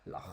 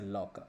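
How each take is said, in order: First: It ends with a Scottish throaty sound. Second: It ends with a hard k sound.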